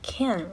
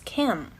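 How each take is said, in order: First: The word is said in its full citation form. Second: The word is altered by the following sound. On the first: "we're told to pronounce it like can" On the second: "it is affected by the sound that follows, and it becomes can"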